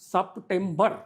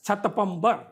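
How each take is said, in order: First: The p sound comes before the t sound. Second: The t sound comes before the p sound. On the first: The speaker calls it right. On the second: The speaker calls it wrong.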